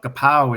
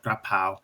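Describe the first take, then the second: First: The first syllable has no r sound. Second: The first syllable has an r sound. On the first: The speaker calls it wrong. "Kapao is actually their word, or, or more" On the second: The speaker calls it right. "It's pronounced more like krapao"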